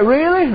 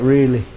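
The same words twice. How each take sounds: First: High, hopeful surprised question; surprised lady. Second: Low, calm confirming reply; calm assurance. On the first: Lady hearing God will lift her burden, surprised. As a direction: ask it in wide-eyed disbelief. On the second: Preacher reassuring the lady, calm. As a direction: answer it gently and sure. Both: Retold or imitated.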